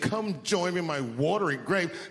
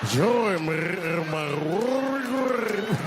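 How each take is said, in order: First: It is said in a plain voice. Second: It is said in a gravelly, rolling throat voice.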